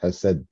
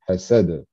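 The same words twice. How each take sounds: First: The final d stops flat with no echo. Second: The final d bounces with a small echo vowel. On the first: The speaker calls it wrong. "pas hasad" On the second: The speaker calls it right. "On rajoute un petit E, on va dire, à la fin de cette lettre-là"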